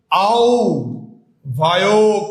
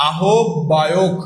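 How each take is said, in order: First: আও ভায়ক in two parts, "au... bhayok"; careful au-bhayok, no h; correct pronunciation. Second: আহ্বায়ক slowly as "a-hob-bayok"; very slow syllables with a doubled b; common pronunciation. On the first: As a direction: pause after আও, then bhayok. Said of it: "উচ্চারণটা কি হবে ভাইয়া". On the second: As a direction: spell out a-hob-bayok by ear. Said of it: "আহ্বায়কের যদি কথা বলি". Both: Shown as a demonstration.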